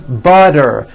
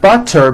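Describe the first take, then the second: First: The middle consonant sounds like a D. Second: The middle consonant sounds like a T.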